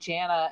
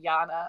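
First: The name begins like the name Janet. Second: The name is said the German way. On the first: The character is not German. The speaker calls it right. "keep saying Jana" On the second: The character is treated as German. The speaker calls it wrong. "and not Jana"

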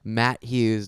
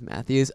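First: It sounds like two words, 'Matt Hughes'. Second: It sounds like one name with a 'th' sound. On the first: The speaker calls it wrong. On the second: The speaker calls it right. "okay, it's Matthews"

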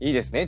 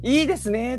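First: It is said flatly, without much feeling. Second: It is said with exaggerated, put-on feeling.

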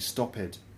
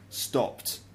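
First: The ending adds an extra id syllable. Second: The ending is a plain t sound, one syllable. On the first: The speaker calls it wrong. "you might find like a Brazilian or a Spanish person saying stopped" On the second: The speaker calls it right. "I would say stopped"

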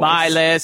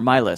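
First: It is said in a special put-on voice. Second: It is said in a normal speaking voice.

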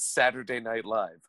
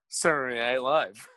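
First: Every syllable is pronounced fully and carefully. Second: The syllables are clipped and run together. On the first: This is the careful form almost nobody uses. "nobody says Saturday Night Live" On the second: This is the casual form everyone uses. "We all say Saturday Night Live"

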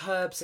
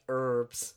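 First: The word begins with an audible H sound. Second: The word begins without any H sound. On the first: The speaker calls it right. "You guys missed the H on this word" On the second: The speaker calls it wrong. "And you guys are like herbs"

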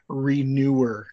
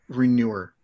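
First: The word is enunciated clearly and carefully. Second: The word is mumbled and sounds like manure. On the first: The speaker calls it right. "I want to enunciate that one better" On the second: The speaker calls it wrong. "I feel like I said manure"

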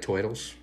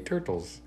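First: The word is said in a New Jersey accent. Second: The word is said without a New Jersey accent.

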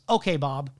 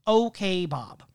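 First: It is said in a plain, neutral tone. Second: It is said in a mocking, teasing tone.

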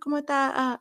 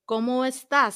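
First: The words are run together quickly, dropping sounds. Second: Every sound is clearly and carefully pronounced. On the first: "certain cultures talk a lot faster" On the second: "they enunciate everything"

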